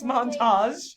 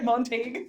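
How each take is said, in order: First: The ending is said with a 'zh' sound. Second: The ending is not said with a 'zh' sound. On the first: The speaker calls it right. "A G E is actually a uzh" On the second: The speaker calls it wrong. "it's not Ma- Montague"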